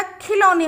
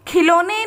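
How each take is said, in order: First: खिलौने with open औ, as "khi-lau-ne"; au vowel. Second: खिलौने with ओ, as "khi-lo-ne"; wrong vowel sound. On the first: Teacher correcting the misspelt word, खिलौने as "khi-lau-ne". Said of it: "ला पर लगेगा औ की मात्रा". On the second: Teacher showing pupils the misspelt word, खिलौने as "khi-lo-ne". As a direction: say खिलौने with a plain "lo" for लौ. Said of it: "खिलौने नहीं होता". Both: Shown as a demonstration.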